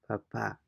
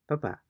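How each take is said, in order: First: The final syllable carries the stress. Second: The final syllable carries no stress. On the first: It means father. "there is an emphasis on the letter A" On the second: It means potato. "there is no um, emphasis on any particular letter"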